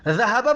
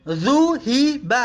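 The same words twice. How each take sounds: First: Said in the usual way. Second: ذهب said in parts as dhu-hi-ba; u then i in ذهب; passive vowels. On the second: Shown as a demonstration. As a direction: sound out ذهب as "dhuhiba", syllable by syllable.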